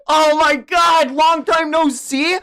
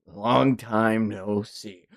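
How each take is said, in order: First: High, loud, drawn-out astonishment; shocked disbelief. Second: Low, very slow, soft greeting; cool returning figure. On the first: Real, not acted. Reader stunned by a returning character's greeting, loud disbelief. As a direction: repeat it as a stunned, rising question. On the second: Acted. Manga character greeting an old foe, low and slow. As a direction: draw it out low and quiet.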